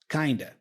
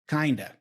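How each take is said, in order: First: The two words are reduced and run together. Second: The two words are reduced and run together.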